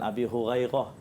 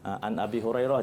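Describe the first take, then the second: First: The r sound comes out as gh. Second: The r sound is a clear r. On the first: The speaker calls it wrong. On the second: The speaker calls it right. "segala huruf-huruf tu kena jelas"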